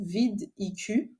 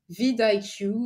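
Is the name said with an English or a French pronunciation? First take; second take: French; English. First: The name is pronounced the French way. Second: The name is pronounced the English way. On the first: "voilà, en français" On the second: "je voulais prononcer à, à l'anglaise"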